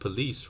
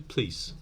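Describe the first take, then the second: First: A weak vowel is heard between p and l. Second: The p runs straight into the l. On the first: "Here there is a schwa" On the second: "might be pronounced as simply please"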